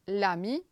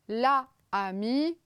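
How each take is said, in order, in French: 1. La voyelle de l'article tombe et se fond avec le nom. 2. L'article garde sa propre voyelle devant le nom. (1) "donc ça devient l'ami" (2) "interdiction totale, il y a deux voyelles"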